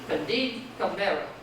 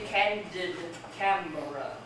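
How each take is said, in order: First: Each word is stressed on its second syllable. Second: Each word is stressed on its first syllable. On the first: The speaker calls it wrong. "Unstress, stress, Camara. Unstress, stress, unstress" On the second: The speaker calls it right. "Stress, unstress. Stress, unstress, unstress"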